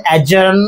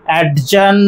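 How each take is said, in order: First: অ্যাডজার্ন as "a-jurn", no d; correct pronunciation. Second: Slow অ্যাডজার্ন with d sounded, "ad-jurn"; wrong pronunciation. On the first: Teacher giving the proper form, correct pronunciation. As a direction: leave the d silent in অ্যাডজার্ন. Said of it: "উচ্চারণটা হচ্ছে". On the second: Teacher repeating the mistake to avoid, wrong pronunciation. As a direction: put an audible d before j in অ্যাডজার্ন. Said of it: "অ্যাডজার্ন নয়". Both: Shown as a demonstration.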